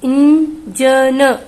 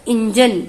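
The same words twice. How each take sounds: First: 'engine' slow, with a clear n sound and a trailing vowel; slow syllable reading. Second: Said in the usual way. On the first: Shown as a demonstration. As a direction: sound out engine slowly, stressing the n. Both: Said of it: "न का sound निकलेगा".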